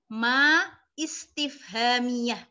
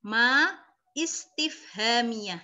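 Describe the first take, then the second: No difference in how they are said.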